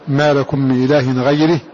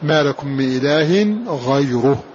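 First: The r of ghayr takes an i vowel. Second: The r of ghayr takes a u vowel. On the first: The word is an adjective describing 'god'. "اخفض الراء منه واكسرها" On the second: The word stands as a substitute for 'god'. "والباقون قرأوا بالرفع"

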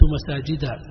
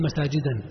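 First: The word ends on a plain vowel, no -n. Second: The word ends with an added -n sound. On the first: The speaker calls it right. "منصوب علامة نصب الفتحة ما تنون" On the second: The speaker calls it wrong. "ما تقول مساجدا تمنع من الصرف"

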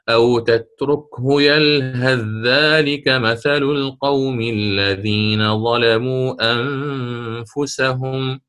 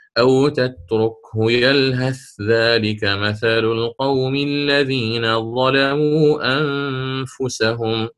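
First: The th sound merges into the following dh. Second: The th sound is pronounced clearly before dh. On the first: "مثل ما فعلنا مع اركب الآن" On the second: "وله وجه الإظهار"

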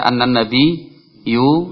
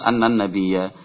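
First: The word ends with a u vowel. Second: The word ends with an a vowel. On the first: The speaker calls it wrong. "Enggak boleh dibaca" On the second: The speaker calls it right.

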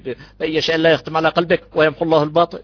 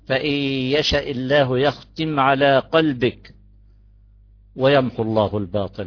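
First: It runs straight on with no pause after قلبك. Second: It pauses after قلبك and the tone changes. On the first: The erasing of falsehood seems conditional on God's will. The speaker calls it wrong. "مش نحكي" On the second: The erasing of falsehood is unconditional. The speaker calls it right. "نوقف هون وقف مريح"

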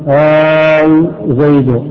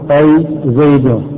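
First: The opening vowel is drawn out long. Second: The opening vowel is short. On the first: The person called is far away. "إذا كان بعيدا" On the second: The person called is near. "إذا كان قريبا تقول"

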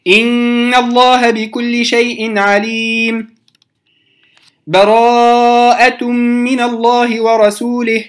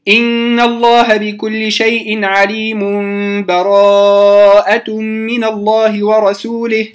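First: A full stop with a breath comes before 'Bara'a'. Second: The verses run together with no break. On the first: "ولي الوقف" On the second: "كده أنا وصلت"

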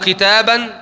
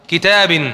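First: The word ends with the vowel a. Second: The word ends with the vowel i. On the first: "متى أنطق الفتحة" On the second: "متى أنطق الكسرة"

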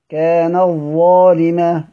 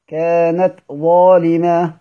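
First: The t sound merges into the following z. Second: The t sound is pronounced clearly and separately. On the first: "ادغام" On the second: "اظهار"

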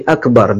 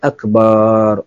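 First: The vowel after the b is short. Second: The vowel after the b is drawn out long.

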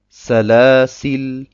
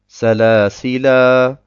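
First: The word ends on the consonant l. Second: The word ends with a long final a. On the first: "oder ich sage Salasil. Salasil und lasse das Alif ganz weg" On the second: "Entweder sage ich Salasila"

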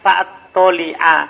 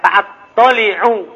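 First: The word ends with an 'a' vowel. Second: The word ends with an 'u' vowel. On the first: The word takes the accusative ending in some canonical readings. "dalam sebagian kiro'ah sab'a dibaca apa? Fa'at-toli'a" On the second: The word takes the nominative ending in the usual reading. "Kan ada fa'at-toli'u"

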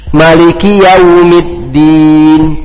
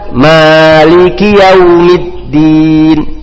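First: The first vowel of maliki is short. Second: The first vowel of maliki is long.

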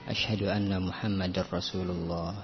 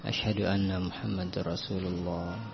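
No difference in how they are said.

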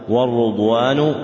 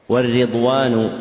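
First: The r is followed by a 'u' vowel. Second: The r is followed by an 'i' vowel. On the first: "وضمها" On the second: "بكسر الراء"

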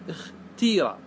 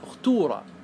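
First: The vowel after t is a clear i. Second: The vowel after t is a clear u. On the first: "بالكسر اختيرة" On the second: "هذه بالضم"

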